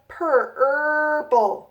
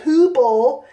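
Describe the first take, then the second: First: The first vowel is an 'er' sound. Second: The first vowel is an 'oo' sound. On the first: The speaker calls it right. "it's a purple little bird" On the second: The speaker calls it wrong. "it's not a poople"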